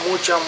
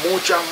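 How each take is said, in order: Both takes have the same delivery.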